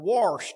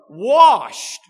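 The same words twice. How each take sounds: First: The word has a regional pronunciation. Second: The word has its standard pronunciation.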